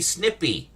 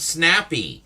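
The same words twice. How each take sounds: First: "snippy" with a short i sound; correct word snippy. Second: "snappy" said with an open a sound; wrong word snappy. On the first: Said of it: "It's actually snippy". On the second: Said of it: "the word is not snappy". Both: Shown as a demonstration.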